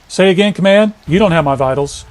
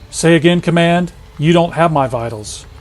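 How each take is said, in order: First: It is said at a normal pace. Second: It is said slowly and drawn out.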